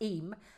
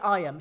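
First: The name begins with an 'ee' vowel. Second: The name begins with an 'eye' vowel. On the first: The speaker calls it right. "She said it's pronounced Eam" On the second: The speaker calls it wrong. "I pronounced it I am"

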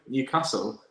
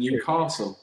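First: It is said the local Newcastle way. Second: It is said the Southern English way.

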